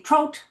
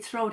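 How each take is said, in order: First: The word begins with a plain T sound. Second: The word begins with a TH sound. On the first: The speaker calls it wrong. "He'd always say throat" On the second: The speaker calls it right. "my dad could never say throat"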